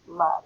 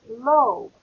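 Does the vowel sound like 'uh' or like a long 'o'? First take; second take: uh; long o. First: The vowel is a short 'uh' with a v ending. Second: The vowel is a long 'o' sound. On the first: The speaker calls it right. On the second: The speaker calls it wrong.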